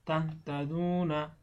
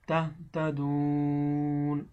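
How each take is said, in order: First: The final long vowel is held for one beat. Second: The final long vowel is stretched to three beats. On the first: The reciter continues without stopping. "এক আলিফ টান" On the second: The reciter stops at this word. "তিন আলিফ দীর্ঘ করিয়া পড়িতে হবে"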